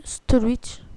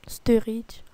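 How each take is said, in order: First: "Sturridge" with an O-like first vowel; first attempted pronunciation. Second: "Sturridge" with a rounded French EU first vowel; retry "Sturridge" as roughly STEU-rit; "Sturridge" with a French R in the middle; alternative pronunciation. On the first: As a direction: try "Sturridge" as roughly STO-lit, French-style. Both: Shown as a demonstration. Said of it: "Je sais pas comment vous le dites".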